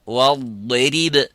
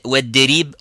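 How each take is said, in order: First: The consonant after the article is heavy emphatic. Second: The consonant after the article is plain light. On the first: The speaker calls it right. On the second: The speaker calls it wrong. "So you don't say"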